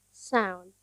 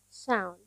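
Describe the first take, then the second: No difference in how they are said.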